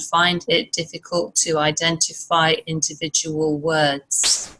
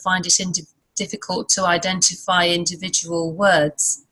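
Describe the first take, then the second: First: Each word is said separately without linking. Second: The words run together in one linked stream. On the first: This is how a non-native speaker says it. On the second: This is how a native speaker says it.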